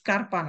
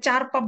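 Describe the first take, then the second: First: The word begins with an sk sound. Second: The word begins with a ch sound. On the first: "না এটা স্কারপা না" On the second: "এটাকে চারপা বললেন না"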